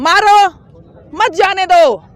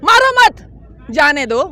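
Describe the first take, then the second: First: There is a pause after the first word. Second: There is a pause after the second word.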